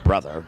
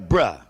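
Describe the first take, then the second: First: The word is said with th and final r. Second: The word is said without th or final r. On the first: "Not give me some more of that wine over there, brother" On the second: "The lack of the er pronunciation and the th pronunciation"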